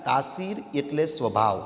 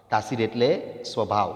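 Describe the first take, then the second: First: Said in the usual way. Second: A teacher pauses on એટલે before answering સ્વભાવ; teacher's quiz pause. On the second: Shown as a demonstration. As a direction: pause after એટલે, then drop low on સ્વભાવ.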